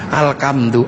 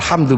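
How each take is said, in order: First: It is said with a Javanese accent. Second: It is said with standard Arabic pronunciation.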